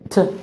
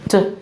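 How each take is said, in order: No difference in how they are said.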